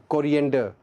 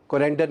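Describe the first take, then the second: First: कोरिएंडर as "ko-ri-EN-der", four syllables; correct pronunciation. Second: कोरिएंडर squeezed to "ko-REN-der"; wrong pronunciation. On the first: Teacher correcting learners, कोरिएंडर with all four syllables. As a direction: say कोरिएंडर with a clear "ri" before "en". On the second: Teacher showing learners the mistake, कोरिएंडर as "ko-REN-der". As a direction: say कोरिएंडर without the i sound. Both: Shown as a demonstration. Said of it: "कोरिएंडर नहीं".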